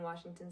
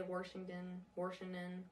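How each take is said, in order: First: Said in the usual way. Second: "Washington" with an added R, "Warshington"; regional Washington. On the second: Shown as a demonstration. Coach imitating older locals, "Washington" said as "Warshington". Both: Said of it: "Some people in Washington say Washington".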